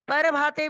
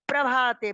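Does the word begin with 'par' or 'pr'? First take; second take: par; pr. First: It begins with 'par', a vowel after p. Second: It begins with 'pr', no vowel after p. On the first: The speaker calls it wrong. "पर भाते भी नहीं बोलना" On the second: The speaker calls it right. "प्र पा के नीचे रहा है, आधा रहा है वो"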